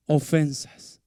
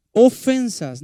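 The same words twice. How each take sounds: First: Said in the usual way. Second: "ofensas" punched high and loud; stress on ofensas. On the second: Shown as a demonstration. Preacher stressing "ofensas" to the congregation, high and loud. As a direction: hit "ofensas" hard and high to make the point. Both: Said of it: "no dice agresiones, no dice maltratos".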